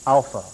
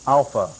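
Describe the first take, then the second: No difference in how they are said.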